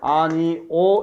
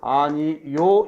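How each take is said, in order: First: The last syllable is a plain 'o' sound. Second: The last syllable has a 'y' glide: 'yo'. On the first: "아니 오 이렇게 발음이 되고" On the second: "아니 요 이렇게 발음이 되기도 하지"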